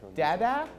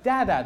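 First: The word sounds uncertain and questioning. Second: The word sounds like an excited exclamation. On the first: The speaker is unsure who is in the picture. "There was a clear hint of question in his voice" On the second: The speaker happily recognizes the person. "with the exclamation that he normally does"

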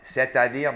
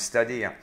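First: Each syllable is said clearly and in full. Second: The syllables are squeezed and slurred together.

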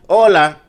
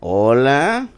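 First: It is a plain, neutral greeting. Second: It is a drawn-out, flirtatious greeting.

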